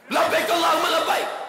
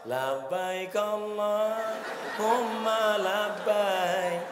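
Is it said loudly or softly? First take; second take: loudly; softly. First: It is said loudly and hard, Sumatran style. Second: It is said softly and gently, Javanese style.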